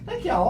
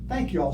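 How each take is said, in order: First: The thanks sounds fake and put on. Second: The thanks sounds warm and sincere. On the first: The gratitude is only for show. The speaker calls it wrong. "that's phony" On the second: The gratitude is genuinely felt. The speaker calls it right. "a sincere thank you"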